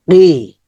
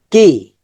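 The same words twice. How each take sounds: First: "রি" as a deep q from the back of the tongue; deep sound. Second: Said in the usual way. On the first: Shown as a demonstration. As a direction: make "রি" a heavy back k. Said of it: "deep sound". ("রি" deep সাউন্ডে, জিহ্বার গোড়া থেকে) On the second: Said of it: "normal sound হচ্ছে".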